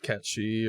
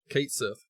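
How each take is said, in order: First: The name is said as one word, Catchy. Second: The name is said as two words, Kate Sith. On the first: The speaker calls it wrong. "It's not Catchy or anything like that" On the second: The speaker calls it right. "That's that's how you pronounce it in this world"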